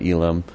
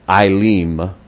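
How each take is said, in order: First: The first vowel is not a long I sound. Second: The first vowel is a long I sound. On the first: The speaker calls it wrong. "I actually pronounced it wrong, I said Elim" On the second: The speaker calls it right. "E is long I, and the I is a long E"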